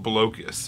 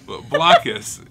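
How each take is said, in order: First: The first syllable sounds like 'bloke'. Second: The first syllable sounds like 'block'. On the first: The speaker calls it wrong. "I've heard people pronounce it Blocus, which to me is insanity" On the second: The speaker calls it right. "Blockus, because you're blocking people"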